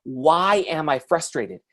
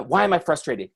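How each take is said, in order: First: "Why am I frustrated" slowly, word by word; slow down and truly ask "Why am I frustrated"; deliberate self-questioning. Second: Said in the usual way. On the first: Shown as a demonstration. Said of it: "step back and actually ask yourself the question". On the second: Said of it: "You gotta ask yourself that question".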